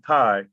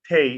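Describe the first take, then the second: First: The vowel is a long I sound. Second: The vowel is a long A sound. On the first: It is probably the more correct form. "even though it most likely probably should be Thai" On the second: It is how their community usually says it. "all T A Y words Tay"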